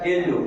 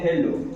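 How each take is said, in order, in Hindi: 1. इस शब्द की शुरुआत में कोई h की आवाज़ नहीं है। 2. इस शब्द की शुरुआत में एक साफ़ h की आवाज़ है। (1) "ब्रिटिश इंग्लिश में ... इसमें जो है एच साइलेंट हो जाता है" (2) "अमेरिकन जो प्रोनाउंस करते हैं तो इसमें विद एच यानी एच के साथ"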